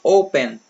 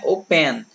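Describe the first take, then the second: First: The stress is on the first syllable. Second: The stress is on the last syllable. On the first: The speaker calls it right. "mais forte que a tônica é o O. Esse verbo é assim" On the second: The speaker calls it wrong. "não é open"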